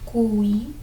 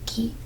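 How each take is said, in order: First: A 'w' sound follows the k. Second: No 'w' sound follows the k. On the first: The speaker calls it wrong. "you will not say that" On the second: The speaker calls it right. "you would say gi or ki"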